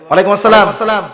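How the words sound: It is said in a harsh, blunt tone.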